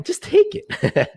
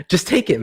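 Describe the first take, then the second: First: "Just take it" stretched out slowly at a much higher pitch; hammed-up falsetto, drawn out; mock high, slow squeal. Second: Said in the usual way. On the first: Shown as a demonstration. Streamer jokes to the chat, mock squeal, slow and high.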